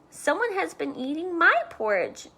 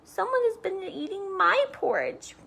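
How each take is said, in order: First: It is said in a medium-sized bear voice. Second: It is said in a tiny, high bear voice.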